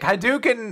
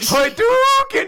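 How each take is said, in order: First: The word is said calmly, in a flat voice. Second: The word is shouted with full force and energy. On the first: The speaker calls it wrong. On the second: The speaker calls it right.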